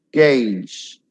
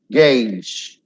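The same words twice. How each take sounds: The two takes are said the same way.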